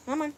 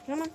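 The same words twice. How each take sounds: The two takes are said the same way.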